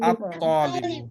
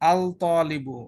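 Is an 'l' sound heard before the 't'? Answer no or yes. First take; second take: no; yes. First: No l sound; the t is doubled instead. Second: An l sound is pronounced before the t. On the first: The speaker calls it right. "লাম উচ্চারণ হবে না" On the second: The speaker calls it wrong. "এটা বললে ভুল হবে"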